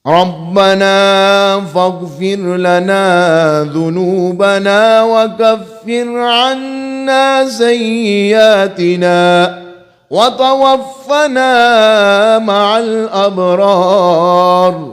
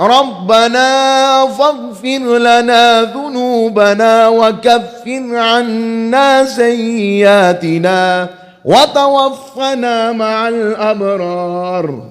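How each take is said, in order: First: It is recited at a moderate, even pace. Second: It is recited quickly with little lingering. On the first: "ये है तदवीर, नमाज वाला।" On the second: "अब हदर है"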